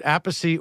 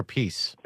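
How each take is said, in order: First: "Appice" in three syllables, AP-a-see. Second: "Appice" in two syllables, a-PEECE. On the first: Host asks which surname is correct, "[name]" said AP-a-see. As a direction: say "Appice" as AP-a-see, stressed first. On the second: Host asks which surname is correct, "Appice" said a-PEECE. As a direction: say "Appice" as a-PEECE, stressed last. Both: Shown as a demonstration. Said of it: "why do you two say it differently".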